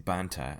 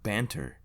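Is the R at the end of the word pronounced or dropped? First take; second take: dropped; pronounced. First: The final R sound is dropped. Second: The final R sound is pronounced.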